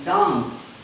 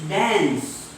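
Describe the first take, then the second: First: DANCE with long open "ah", "daans"; broad British vowel on DANCE. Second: DANCE with front "a" as in cat; American dance. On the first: Teacher modelling British English, DANCE as "daans". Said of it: "In British English". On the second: Teacher modelling American English, DANCE with cat vowel. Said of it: "In American English". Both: Shown as a demonstration.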